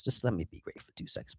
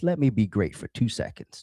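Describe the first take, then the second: First: Faster, under his breath; whispered to himself. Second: Said in the usual way. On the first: Real, not acted. Host fussing with his gear, whispering to himself. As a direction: whisper it to yourself while fixing the setup. Host fumbling setup, muttering to self.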